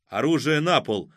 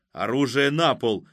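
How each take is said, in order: First: Firm, somewhat raised order; booming command. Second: Forceful order with a touch of fury; more furious. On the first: Unseen shooter to the gunmen, booming order. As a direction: ring it out as a command. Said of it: "раздался гулкий голос". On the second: Unseen shooter to the gunmen, more fiercely. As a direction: repeat the command with mounting anger. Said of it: "ещё яростней проговорил невидимый стрелок". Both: A narrator's reading.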